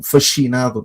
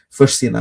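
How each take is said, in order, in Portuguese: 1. O s e o c se juntam em um único som parecido com 'ch'. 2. Os sons do s e do c são mantidos separados. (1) "para não ficar um fascinado" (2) "tentar desconectar uh, a sonorização das duas letras"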